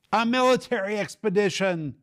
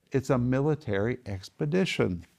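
First: High, loud exclaimed answer to his own question; emphatic answer. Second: Said in the usual way. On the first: Real, not acted. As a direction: blurt out the answer in mock exasperation. Teacher answers his own quiz.

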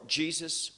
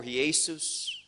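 First: Said in the usual way. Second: "Jesus" said the Spanish way, roughly hay-SOOS; Spanish pronunciation. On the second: Shown as a demonstration. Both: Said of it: "whatever language, how that name is spoken".

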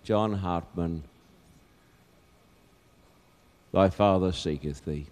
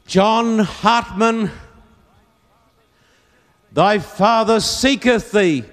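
First: Low, soft, tender call; hushed call. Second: Slow, high call across a field. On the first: God seeking the lost in despair, hushed call. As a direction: drop right down and say it gently. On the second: Old Quaker searching the field for his son, calling out. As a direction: call out with long drawn vowels. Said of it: "cup his hands and he'd call out". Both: Acted.

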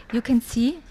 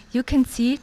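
The two takes are said the same way.

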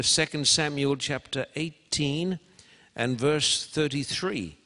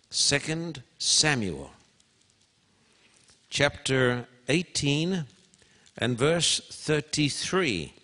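First: Said in the usual way. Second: Slow, each word apart; slow, spaced reference. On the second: Shown as a demonstration. Preacher repeating the reference to the congregation, slow and spaced. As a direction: dictate it slowly so they can find it. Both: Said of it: "I want you to turn over here".

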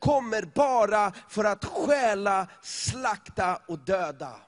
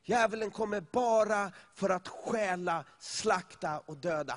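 First: Loud and slow over the music, hammering the verse; loud preaching. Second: Said in the usual way. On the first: Real, not acted. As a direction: proclaim it louder and slower, like a warning from the pulpit. (högt och långsamt predikande)

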